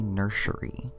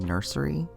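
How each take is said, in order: First: The middle consonant is an sh sound. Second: The middle consonant is a plain s sound. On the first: "like with an S H" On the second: "instead of saying nursery"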